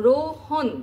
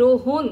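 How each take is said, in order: First: "রোহন" ending in open "-hɔn"; open-vowel pronunciation. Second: "রোহন" ending in rounded "-hon"; closed-vowel pronunciation. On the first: Teacher showing students the অ after হ, open-vowel pronunciation of "রোহন". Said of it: "আমরা হ উচ্চারণ করছি". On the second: Teacher showing the alternative ও after হ, closed-vowel pronunciation of "রোহন". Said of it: "তখন হ এর পরে ও". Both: Shown as a demonstration.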